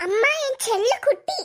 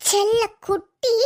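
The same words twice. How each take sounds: First: Said in the usual way. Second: செல்ல குட்டி stretched slowly and lower; fond coo. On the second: Shown as a demonstration. Daughter cooing செல்ல குட்டி to her mother, slow and fond. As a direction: drag out செல்ல குட்டி fondly. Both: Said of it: "repeats the endearment".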